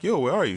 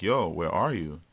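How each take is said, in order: First: Higher and louder, yo where are you; man on the phone asking his date where she is; impatient call. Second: Said in the usual way. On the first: Retold or imitated. Calling her again, impatient.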